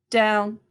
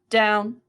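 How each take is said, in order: No difference in how they are said.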